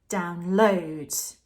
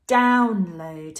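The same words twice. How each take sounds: First: The stress is on the second syllable. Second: The stress is on the first syllable. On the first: It is used as a verb. "If we put the stress on the load, that's when it's a verb" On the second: It is used as a noun. "If it's a noun, we put the stress on the first syllable"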